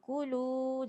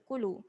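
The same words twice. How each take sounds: First: The vowel is drawn out long. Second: The vowel is kept short. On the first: The speaker calls it right. "kulu ni ada panjang" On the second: The speaker calls it wrong. "jangan baca kulu"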